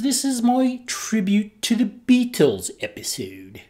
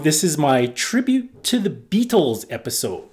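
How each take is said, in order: First: It is spoken in a put-on British accent. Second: It is spoken in the speaker's natural accent.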